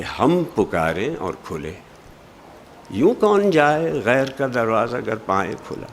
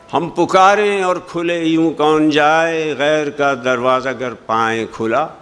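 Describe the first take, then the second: First: Weight on हम and on पुकारें; correct phrasing. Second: No pause after खुले; usual wrong phrasing. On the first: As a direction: break after खुले, then यूं कौन जाए as a question. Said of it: "Ghalib कहना ये चाहते हैं कि". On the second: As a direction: read हम पुकारें और खुले यूं कौन जाए in one breath. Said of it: "मफ़हूम सही अदा नहीं होता". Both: Shown as a demonstration.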